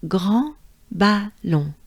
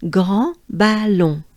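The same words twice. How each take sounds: First: "grand ballon" slowed down, nasal vowels; French grand ballon. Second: "Grand ballon" slow, with a uvular R and nasal vowels; slow model, "Grand ballon"; Grand Ballon, bien français; French grand ballon. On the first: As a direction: repeat "grand ballon" slowly. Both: Shown as a demonstration. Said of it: "it sounds like this".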